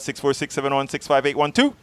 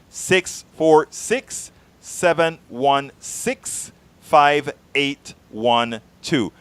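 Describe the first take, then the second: First: The number is read at a quick pace. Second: The number is read at a slower pace. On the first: "they told me I speak very fast" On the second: "I'm going to slow it down some"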